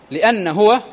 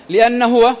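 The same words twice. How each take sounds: The two takes are said the same way.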